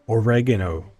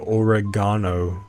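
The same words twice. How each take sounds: First: It is pronounced the American way. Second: It is pronounced the British way. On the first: "I'm going to say oregano, like an American" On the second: "British people, English people say oregano"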